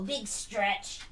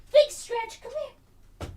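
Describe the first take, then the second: First: Said in the usual way. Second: Big stretch sung up high, then falling; high puppy-talk voice. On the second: Real, not acted.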